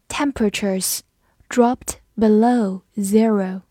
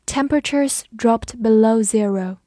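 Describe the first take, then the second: First: Slow, words set apart; slow read-along. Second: Said in the usual way. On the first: Shown as a demonstration. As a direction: model the sentence slowly for learners. (慢速分词领读) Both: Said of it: "我们慢读一遍".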